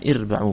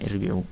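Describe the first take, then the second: First: The vowel after the b is a. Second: The vowel after the b is i. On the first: The speaker calls it right. "dengan ba, ya, muwahhadah yang di fathah" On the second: The speaker calls it wrong. "bukan irbi'u"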